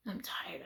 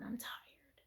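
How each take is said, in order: First: Soft voiced repeat of I'm tired; quiet prayer. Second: Weary whisper to the Lord; whispered prayer. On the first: Praying to the Lord before bed, soft and weary. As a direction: say it softly again, worn out. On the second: Retold or imitated. Praying to the Lord before bed, weary whisper. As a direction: breathe it out, spent. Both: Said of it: "I said, "Lord".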